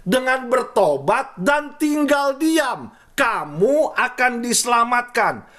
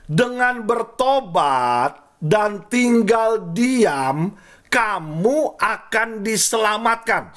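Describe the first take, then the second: First: Repeated higher and slow, with a fall on diam; slow, raised emphatic repeat; higher repeated verse. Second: Each word drawn out, slow and weighty; solemn, slow scripture reading; slow verse reading. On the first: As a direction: lift the pitch and press the verse home. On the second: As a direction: read the verse slowly and deliberately. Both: Shown as a demonstration. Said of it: "Saya ulangin".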